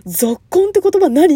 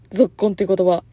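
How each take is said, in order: First: ぞっこんって言葉何 asked loud and higher, rising on the end; mock a friend asking what ぞっこん means, louder and higher; puzzled question. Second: Said in the usual way. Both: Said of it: "って言われたの".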